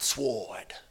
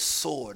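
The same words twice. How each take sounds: First: The word is said with a W sound. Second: The word is said with no W sound. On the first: The speaker calls it wrong. "not sword" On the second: The speaker calls it right. "The W is silent"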